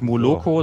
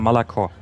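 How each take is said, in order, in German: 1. Die unbetonten Vokale werden als volles 'o' ausgesprochen. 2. Die unbetonten Vokale werden zu 'a' reduziert. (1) "das heißt auch nicht Moloko" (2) "sondern Malako"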